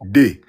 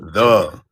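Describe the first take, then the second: First: The word begins with a hard d sound. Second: The word begins with a soft th sound. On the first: The speaker sounds like they are from Africa. The speaker calls it wrong. "You're saying D as if you're from the continent" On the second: The speaker sounds like a local American. The speaker calls it right. "You're not saying"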